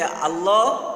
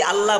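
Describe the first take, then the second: First: আল্লাহ with rounded o ending, "Allo"; Arabic pronunciation. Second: আল্লাহ with open a ending, "Alla"; Bengali pronunciation. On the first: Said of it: "লিখেন যে আল্লাহ শব্দটি". (আরবি উচ্চারণে "আল্লো") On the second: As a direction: end আল্লাহ on a clear "laa". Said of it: "আল্লাহ বলে বাংলায়". (বাংলা উচ্চারণে "আল্লা") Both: Shown as a demonstration.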